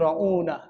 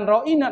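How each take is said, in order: First: The vowel after the glottal stop is 'u'. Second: The vowel after the glottal stop is 'i'. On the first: It calls the listener a fool. "diplesetin lagi" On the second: It asks someone to pay attention to us. "Kalau Anda mengatakan ro'ina"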